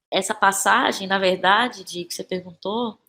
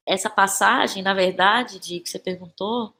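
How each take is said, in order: Both takes have the same delivery.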